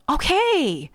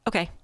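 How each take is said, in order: First: It sounds warm and caring. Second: It sounds flat and uncaring.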